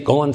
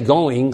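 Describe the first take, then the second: First: The ending is said as a plain n sound. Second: The ending is said with a full ng sound. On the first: "you never say any of your ings. You say going" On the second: "You don't say going"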